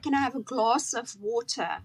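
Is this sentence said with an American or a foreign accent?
foreign. It is said with a foreign, non-American accent. Listeners could not understand it. The speaker calls it wrong. "Nobody knew what I was saying"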